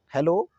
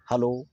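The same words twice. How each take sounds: First: "हेलो" as heh-LO, with 'e' spelling; 'e' variant. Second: "हेलो" as huh-LO, with 'a' spelling; 'a' variant. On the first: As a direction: say "हेलो" with a clear 'he' first. ("हेलो" में साफ़ 'हे' बोलें) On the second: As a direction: say "हेलो" with a neutral 'ha' first. ("हेलो" को 'हलो' बोलें) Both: Shown as a demonstration. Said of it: "दोनों ही सही हैं".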